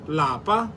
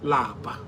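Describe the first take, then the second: First: The word is said on a high tone. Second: The word is said on a low tone. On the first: It means home. "In higher tone" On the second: It means to be tired. "Lower tone"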